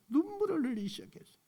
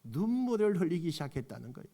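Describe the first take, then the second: First: 눈물을 흘리기 시작했어요 said again higher and soft, emphasised; 눈물을 said higher and softer, fast; higher repeat. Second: Said in the usual way. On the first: Shown as a demonstration. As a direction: lift 눈물을 up high on the repeat.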